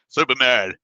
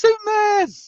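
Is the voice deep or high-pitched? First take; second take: deep; high-pitched. First: It is said in a deep, low voice. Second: It is said in a high-pitched voice. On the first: "That sounds more like Batman now" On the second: "I say Superman with a high-pitched voice"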